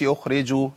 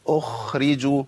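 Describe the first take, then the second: First: "أخرجوا" with the kha hurried and nearly lost; swallowed kha. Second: "أخرجوا" with the kha given its full airy friction; clear soft kha. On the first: Teacher showing the dropped-letter error, swallowed kha. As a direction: drop most of the kha's friction in "أخرجوا". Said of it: "فين الخاء يا عم الشيخ". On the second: Teacher modelling for the class, clearly released kha. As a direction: let the kha in "أخرجوا" flow audibly before the ra. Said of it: "وأبين رخاوة". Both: Shown as a demonstration.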